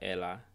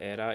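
First: The middle consonant is an l sound. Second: The middle consonant is an r sound.

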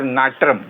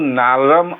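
First: The middle consonant is a joined tr sound. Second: The middle consonant is a plain r sound. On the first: The speaker calls it right. "याचा उच्चारच असा होता, र आणि र असं जोडून आलं" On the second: The speaker calls it wrong. "नारम असा याचा उच्चार होत नाही"

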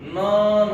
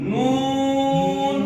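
First: The vowel is said with unrounded lips. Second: The vowel is said with rounded lips. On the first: The speaker calls it wrong. "যদি ঠোঁট আপনারা গোল না করেন তাহলে নন উচ্চারণ হবে" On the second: The speaker calls it right. "ঠোঁটটা গোল করতে হবে একবারে।"

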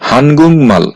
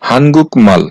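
First: The first word ends with an ng sound. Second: The first word ends with a k sound. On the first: The speaker calls it right. "এই শব্দটার সঠিক উচ্চারণ হবে হানগুং মাল" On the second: The speaker calls it wrong. "এই শব্দটার উচ্চারণ হওয়ার কথা ছিল হানগুক মাল"

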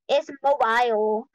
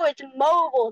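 First: The ending of mobile sounds like vial. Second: The ending of mobile does not sound like vial. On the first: This is how someone else says it. The speaker calls it wrong. "are you talking about like Moby Dick and like a vial?" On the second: This is the speaker's own way of saying it. The speaker calls it right. "bro, it's mobile"

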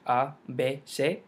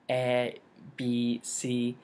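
First: The letters are said with Spanish vowel sounds. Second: The letters are said with English vowel sounds. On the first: The speaker calls it right. "pronounced a in Spanish" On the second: The speaker calls it wrong. "That ruins the entire flow of the language"

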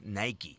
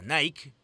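First: It is said the original brand way. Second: It is said the local Peruvian way. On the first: This is how the brand is really named. "pero en realidad la marca es" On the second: This is how people here say it. "nosotros conocemos a"

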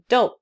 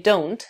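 First: The final t is a glottal stop. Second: The final t is clearly pronounced. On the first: "вы сделаете glottal stop, прервете голос, но т произносить не будете" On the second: "там т на конце"

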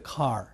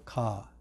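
First: It is said with an English accent. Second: It is said with a Japanese accent. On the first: "英語ではcar" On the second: "日本人はcar って言いますでしょ"

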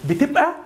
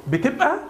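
The two takes are said the same way.

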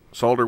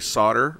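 First: The word is said with an L sound. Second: The word is said without an L sound. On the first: The speaker calls it right. "Solder with an L. That's the right way to pronounce it" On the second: The speaker calls it wrong. "All you guys that say solder are saying it wrong"

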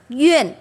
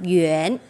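First: The pitch falls sharply from high to low. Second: The pitch rises from mid to high. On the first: "Thanh tư đọc Duyên" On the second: "Thêm dấu sắc đọc Duyên"

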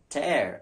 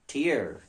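First: The vowel does not rhyme with hear. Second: The vowel rhymes with the word hear. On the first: It means to rip something. "as verb, T-E-A-R is pronounced as tear" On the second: It names a drop from the eye. "as noun is tear"

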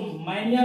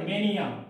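First: The first vowel is like in 'man'. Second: The first vowel is like in 'may'. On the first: The speaker calls it wrong. "इसको मैनिया ना पढ़े" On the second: The speaker calls it right.

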